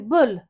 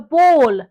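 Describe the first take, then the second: First: The vowel sounds like the one in 'full'. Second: The vowel sounds like the one in 'call'. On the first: This is how the speaker personally says it. "There's certain things I say weird apparently" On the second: This is how other people say it. "they call it a ball"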